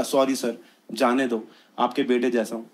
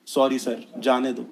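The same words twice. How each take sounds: First: Soft, low sheepish plea; meek pleading. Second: Soft, slow meek plea; pleading softly. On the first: Teen begging the policeman to let him go, soft meek plea. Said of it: "मैंने बोला". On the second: Caught teen pleading with the policeman, soft meek plea. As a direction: beg quietly like a caught kid. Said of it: "हम क्या बोलते हैं". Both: Retold or imitated.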